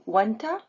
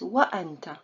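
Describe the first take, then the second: First: The vowel of anta joins smoothly onto wa. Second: A glottal stop cuts between wa and anta. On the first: The speaker calls it wrong. "Can you say وأنت? No" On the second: The speaker calls it right. "it's وأنت. So there is همزة قطع here"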